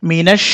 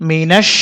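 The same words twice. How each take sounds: Both takes have the same delivery.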